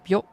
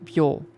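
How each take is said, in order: First: The final vowel is short. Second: The final vowel is held long. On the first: "we usually say this without uh, the u" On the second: "with u, it becomes byo. So as you can hear, ... the pronunciation of it is longer"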